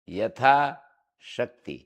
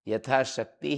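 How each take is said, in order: First: There is a break between the two parts. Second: The parts are said joined, without any break. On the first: The speaker calls it wrong. "इसको कोई पढ़े यथा शक्ति ... गलत है ये" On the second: The speaker calls it right. "यथाशक्ति ही बोलना पड़ेगा"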